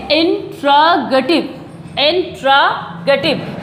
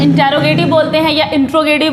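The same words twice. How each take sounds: First: "इंट्रोगेटिव" slowly broken up, in... tra... ga-tiv; "इंट्रोगेटिव" as a slow teacher's model; correct pronunciation. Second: "इंट्रोगेटिव" the everyday way, no breaks; common mispronunciation. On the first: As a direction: stretch each chunk of "इंट्रोगेटिव", falling at the end. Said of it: "इसका pronounce हम इस तरीके से करेंगे". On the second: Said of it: "यही तो word बोले जाते हैं कॉमन में". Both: Shown as a demonstration.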